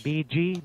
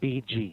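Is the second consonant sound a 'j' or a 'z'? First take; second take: j; j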